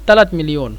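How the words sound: The word for three begins with a t sound. This is the regional dialect form. "আমরা আঞ্চলিক ভাষা বলি তালাত মিলিয়ন"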